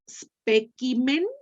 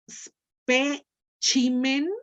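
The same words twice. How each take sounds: First: It uses the classical Latin pronunciation. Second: It uses the Italian Latin pronunciation. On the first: "sería clásique" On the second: "sería itálique"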